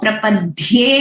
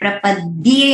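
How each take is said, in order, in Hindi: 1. 'd' ध्वनि महाप्राण है, साँस के झोंके के साथ। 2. 'd' ध्वनि अल्पप्राण है, साँस के झोंके के बिना। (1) "वो प्रपद्ये नहीं है" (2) "अल्प प्राण, सिंपल द्ये"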